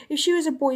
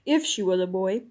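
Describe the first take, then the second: First: Higher, eager schoolboy voice; schoolboy's eager line. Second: Lower, dry kingly echo; king's stern echo. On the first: Eustace suggesting Jill be knighted, higher and eager. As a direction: say it brightly like an admiring boy. Eustace's phrase echoed by king. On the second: King answering Eustace, lower and dry. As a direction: turn the phrase back, low and stern. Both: Acted.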